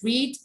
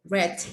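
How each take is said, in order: First: It is pronounced as the present tense form. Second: It is pronounced as the past tense form. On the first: The action happens now or habitually. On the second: The action happened in the past.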